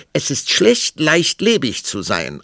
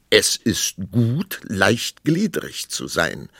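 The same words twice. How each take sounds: First: High, loud contradiction; retorting queen. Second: Slow, measured pronouncement; arguing king. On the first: Queen answering the king's claim, high loud retort. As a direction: hit back in a high-pitched queen voice. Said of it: "antwortete die Königin". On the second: King arguing wordplay with queen, slow and measured. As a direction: state it ponderously, stretching each word. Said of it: "sagte der König". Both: A narrator's reading.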